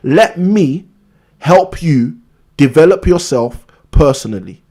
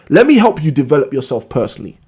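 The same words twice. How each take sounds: First: It is spoken slowly and deliberately. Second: It is spoken at a normal pace.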